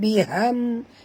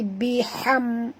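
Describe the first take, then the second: First: The h is a plain soft breath. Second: The h is a sharp throat sound. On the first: The speaker calls it wrong. "bukan biham" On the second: The speaker calls it right. "tapi biham, ha pedas"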